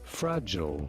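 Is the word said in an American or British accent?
American. It is said with an American English accent. "In American"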